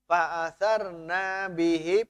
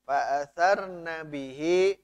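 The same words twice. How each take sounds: First: The vowel in 'na' is drawn out long. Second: The vowel in 'na' is kept short. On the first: The pronoun means 'we'. The speaker calls it wrong. "banyaknya panjangnya" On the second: The pronoun refers to a feminine plural group. The speaker calls it right. "Padahal pendek"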